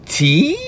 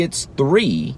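First: "T" for three, high and questioning; toddler version. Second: Said in the usual way. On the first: Retold or imitated. Dad imitating his son saying T instead of three. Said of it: "Can you say three". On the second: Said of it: "If I would have said".

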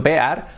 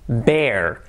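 First: "bear" read as Spanish, "be-ar"; spelling pronunciation. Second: Said in the usual way. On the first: Shown as a demonstration. Teacher showing learners the spelling, "bear" sounded "be-ar". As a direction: split "bear" into two vowels, e then a. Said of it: "escrito bear". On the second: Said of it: "Cuidado la pronunciación".

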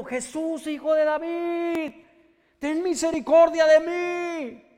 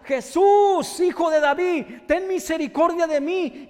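First: High, slow pleading shout; drawn-out cry for mercy. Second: Loud, high desperate shout; shouted cry for mercy. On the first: Beggar calling again to Jesus, slow high pleading shout. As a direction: stretch the cry out, begging. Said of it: "oía la voz gritando". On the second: Blind beggar shouting to Jesus over the crowd, loud desperate cry. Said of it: "escuchaba un grito que decía". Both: Acted.

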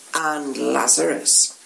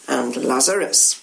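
First: Lower, slow, hushed echo of Lazarus; knowing echo. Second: Low, knowing hint on Lazarus; significant. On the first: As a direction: drag the name out darkly. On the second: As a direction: let the name hang meaningfully. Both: Acted. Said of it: "They nod together significantly".

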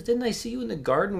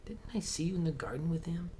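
First: High, loud challenge; a servant calling out a stranger by the fire; accusing. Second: Unvoiced, secretive challenge; whispered. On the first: Acted. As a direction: fling the question at him loudly. Bystander accuses Peter. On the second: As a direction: whisper the question like a suspicion. Whispered accusation.

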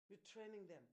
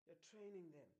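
No difference in how they are said.

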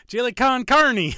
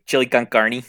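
First: Chili con carne sung out high, loud and slow; high, loud, hammed-up Spanish-style chili con carne; mock Spanish flair. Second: Chili con carne with Spanish flair. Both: Shown as a demonstration. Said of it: "You gotta say it like this".

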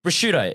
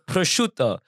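First: 'Prosciutto' as pruh-SHOO-doh; Australian pronunciation. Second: 'prosciutto' as pro-SHOO-to, a little higher; Italian-style pronunciation. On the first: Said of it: "If I'm Australian, I'm just gonna say prosciutto". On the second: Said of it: "Roll the R's". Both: Shown as a demonstration.

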